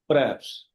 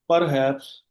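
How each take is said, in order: First: The h sound is silent. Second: The h sound is pronounced. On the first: The speaker calls it right. "it's perhaps. H is silent" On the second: The speaker calls it wrong. "this word is not perhaps"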